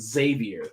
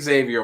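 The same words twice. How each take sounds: First: The name begins with a 'z' sound. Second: The name begins with an 'eks' sound. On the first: "you do not say the X" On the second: "I've said Xavier my whole life, Professor X"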